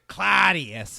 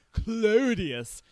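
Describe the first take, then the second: First: Claudius drawn out loud in its street form; street-sounding pronunciation. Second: Claudius drawn out and high, in its original form; original pronunciation. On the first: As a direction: punch out Claudius as the streetwise version. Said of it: "relatively more street-sounding Claudius". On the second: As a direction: stretch out Claudius as the grander original name. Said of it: "he changed his name to the relatively more street-sounding". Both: Shown as a demonstration.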